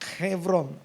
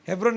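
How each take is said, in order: First: It begins with a harsh kh and has v. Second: It begins with a plain h and has b.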